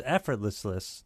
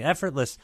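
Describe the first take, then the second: First: "effortless" fumbled with an extra "less" syllable; tongue-tied "effortless", tail repeated; flubbed word. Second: Said in the usual way. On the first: Real, not acted. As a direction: trip over the end of "effortless", doubling it. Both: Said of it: "and I, I messed it up".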